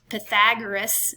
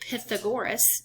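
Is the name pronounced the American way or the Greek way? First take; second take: American; Greek. First: It uses the usual American pronunciation. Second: It uses the Greek pronunciation. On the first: The speaker calls it wrong. "in America we pronounced that wrong" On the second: The speaker calls it right. "his name is really Pythagoras"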